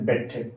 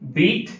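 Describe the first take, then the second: First: The vowel is short, like in bet. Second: The vowel is long, like in beat. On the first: The speaker calls it wrong. "most of the students pronounce it as a bet. It's not a bet" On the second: The speaker calls it right. "The three forms"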